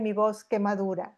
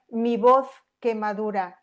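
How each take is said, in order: First: It is said with a Latin American accent. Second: It is said with a peninsular Spanish accent. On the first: "en acento más latinoamericano o canario" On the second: "si lo pronuncio en castellano es castellano peninsular"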